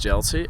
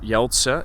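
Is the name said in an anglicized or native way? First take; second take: anglicized; native. First: The name is said the anglicized English way. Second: The name is said the native Dutch way. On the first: The speaker calls it wrong. "most people um, in English just pronounce it as Jeltsi" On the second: The speaker calls it right. "it's actually just Jeltse"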